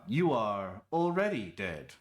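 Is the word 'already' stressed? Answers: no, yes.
yes. The word 'already' is stressed. The speaker calls it wrong. "Sounds weirder that way"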